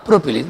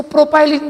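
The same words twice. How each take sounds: First: प्रोपिलीन with "pi" as in pin; short-i pronunciation. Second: प्रोपाइलिन with "pie" in the middle; alternative pronunciation. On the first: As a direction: say प्रोपिलीन with an i, not "pie". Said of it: "मैंने प्रोपिलीन बोला". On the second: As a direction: say प्रोपाइलिन as pro-pie-lin. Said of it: "कुछ लोग इसको प्रोपाइलिन भी बोलते हैं". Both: Shown as a demonstration.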